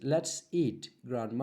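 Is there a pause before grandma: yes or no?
yes. There is a pause before grandma.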